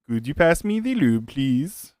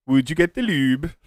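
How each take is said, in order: First: Put-on a light, joking Dutch accent with a falling finish; retry the request in a put-on Dutch accent; mock Dutch accent. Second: Put-on a light, joking Norwegian accent with a rising finish; mock Norwegian accent. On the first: Streamer corrects himself and asks for the lube, in a mock Dutch accent. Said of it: "Is that how the Dutch pronounce it?". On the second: Streamer asks someone to fetch the lube, in a mock Norwegian accent. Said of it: "that was more of a Norwegian accent".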